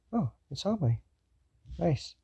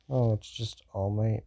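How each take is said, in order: First: Higher, casually pleased reaction; chill. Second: Unimpressed, understated reaction; cool indifference. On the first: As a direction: react chill but not cold. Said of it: "He's chill, not ice cold hearted". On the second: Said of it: "Kinda like Todoroki. Not that way". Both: Acted.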